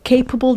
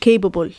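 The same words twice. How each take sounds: First: The first b-like sound is heavy, the second light. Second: Both b-like sounds are said light. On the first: The speaker calls it right. "فيها two b's، واحدة b تقيلة اللي في الأول، والتانية b خفيفة" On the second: The speaker calls it wrong. "ولا تنطق الاتنين b خفيفة"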